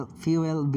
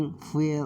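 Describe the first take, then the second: First: "fuel" re-said carefully as FYOO-el; corrected pronunciation. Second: Said in the usual way. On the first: Shown as a demonstration. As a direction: say "fuel" in two parts, FYOO-el. ("fuel" শব্দটি শুধরে ফিউ-এল উচ্চারণে) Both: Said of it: "এখানে ফুয়েল হবে উচ্চারণটা".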